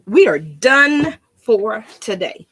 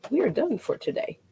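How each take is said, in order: First: We are done for today, louder and slow, every word spaced out; announcing sign-off. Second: Said in the usual way. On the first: Real, not acted. Crafter announces the end of the session to viewers, louder and slow. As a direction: proclaim the wrap-up grandly.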